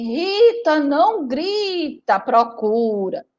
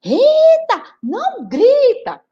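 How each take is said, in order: First: Slow, patient mother's reply; calm mother. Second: High, loud exasperated mother; tired mother snapping. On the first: Mother patiently telling Rita to look, slow and even. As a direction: soothe the yelling child slowly. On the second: Worn-out mother yelling back at Rita, higher and louder. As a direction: lose patience with the child. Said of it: "a mãe dela já cansada". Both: Acted.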